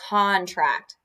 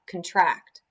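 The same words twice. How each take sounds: First: The first syllable is said fully, not rushed. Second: The first syllable is said quickly and lightly. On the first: It names a legal document. "So this one is contract" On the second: It means to shrink or grow smaller. "you're supposed to say it faster up front"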